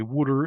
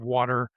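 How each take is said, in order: First: It is said in a Philadelphia accent. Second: It is said in a standard accent.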